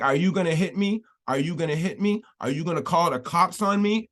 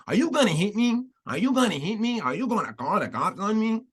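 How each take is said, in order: First: Said in the usual way. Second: High, singsong mock Afro-Latina accent; deliberately terrible put-on Black-Hispanic accent, swooping up high. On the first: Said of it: "I don't know if she did in the black". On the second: Host mocking Jessica Krug's fake accent, exaggerated high Afro-Latina put-on. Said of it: "our horrible version of a black people or Spanish accent".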